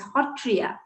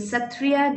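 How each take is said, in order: First: The word begins with an h sound. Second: The word begins with an s sound. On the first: The speaker calls it right. "we pronounce it as Ho" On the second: The speaker calls it wrong. "we don't pronounce it as Sa"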